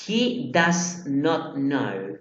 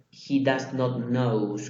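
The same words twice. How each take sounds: First: Very slow, word by word; correct sentence. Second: Said in the usual way. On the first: Shown as a demonstration. Teacher contrasting the right form with the wrong one, slowly. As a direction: read it slowly so every word lands. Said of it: "pero no sería he does not knows". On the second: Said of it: "no sería he does not knows con una S".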